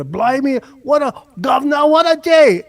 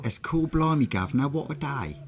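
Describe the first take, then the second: First: High, loud hammed-up English accent; mock English accent. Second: High-pitched put-on English accent; mock English accent. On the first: American showing how English people do it better, mock English accent. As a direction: ham up an Englishman's exclamation, pitched way up. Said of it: "English people do it better". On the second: British speaker mimicking the other's attempt, mock English accent. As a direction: echo it back in exaggerated English, pitched up. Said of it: "where did the accent go?".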